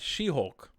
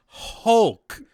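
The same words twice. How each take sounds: First: Said in the usual way. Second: "Hulk" punched high and loud; stress on Hulk. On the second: Shown as a demonstration. Reviewer driving home how super strong she is, heavy stress on "Hulk". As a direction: hit "Hulk" hard, much louder and higher. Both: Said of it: "I'm gonna emphasize the word Hulk".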